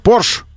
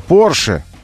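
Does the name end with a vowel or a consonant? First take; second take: consonant; vowel. First: The name ends on the 'sh' consonant. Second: The name ends with a final vowel. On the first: The speaker calls it wrong. "целая партия знатоков, утверждающих, что Порш" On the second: The speaker calls it right. "а никакой не Порше"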